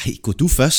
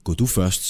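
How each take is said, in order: First: "du" pitched up and louder; higher, louder protest with "du" stressed; retort. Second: Said in the usual way. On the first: Acted. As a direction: throw it straight back, leaning hard on "du". Companion throws the order straight back.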